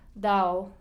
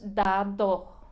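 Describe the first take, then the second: First: The second d is left out entirely. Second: The second d is pronounced strongly and hard. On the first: "hasta no pronuncian la D ni siquiera" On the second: "con una D en la segunda, la segunda D eh, muy fuerte. No decimos dado, no, a menos que... estemos enojados"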